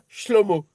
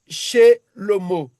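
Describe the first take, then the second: First: The first two consonants are said together. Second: A short vowel separates the first two consonants. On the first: "on devait dire Sh- Shlomo" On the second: "on dit Shelomo"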